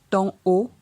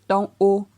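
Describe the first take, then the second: The two takes are said the same way.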